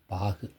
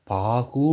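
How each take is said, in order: First: பாகு with long aa and a brief, reduced final u; shortened final u. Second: பாகு with the final கு drawn out into a full oo; wrongly full u. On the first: Teacher showing the correct பாகு, clipped final u. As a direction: let the கு of பாகு die away softly and short. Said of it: "அப்படி தான் உச்சரிப்பீங்க". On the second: Teacher showing students how not to say பாகு, over-full final u. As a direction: overdo the closing u of பாகு, paaguu. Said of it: "அப்படி உச்சரிக்க மாட்டீங்க". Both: Shown as a demonstration.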